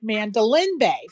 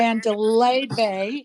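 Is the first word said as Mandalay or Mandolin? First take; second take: Mandolin; Mandalay. First: The first word is said as Mandolin. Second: The first word is said as Mandalay. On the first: The speaker calls it wrong. "I keep pronouncing it Mandolin Bay" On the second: The speaker calls it right. "instead of"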